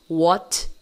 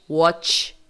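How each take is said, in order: First: WHAT ending in a simple released T; final T sound. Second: WATCH ending in a hissed "tch"; final TCH sound. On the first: Teacher contrasts what with watch, simple T. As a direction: stop WHAT on a plain T. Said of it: "Temos uma diferença aí". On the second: Teacher contrasts watch with what, TCH ending. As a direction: close WATCH on a CH, unlike a T. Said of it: "é T C H". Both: Shown as a demonstration.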